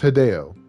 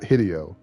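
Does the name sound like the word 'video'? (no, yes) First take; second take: no; yes. First: The name does not rhyme with video. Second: The name rhymes with the word video. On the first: The speaker calls it right. "his name is Hideo" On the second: The speaker calls it wrong. "It's not Hideo"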